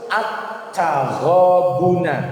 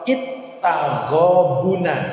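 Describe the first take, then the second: First: The word begins with the vowel a. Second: The word begins with the vowel i. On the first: The speaker calls it right. "tetapi harus" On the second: The speaker calls it wrong. "Tidak boleh dibaca"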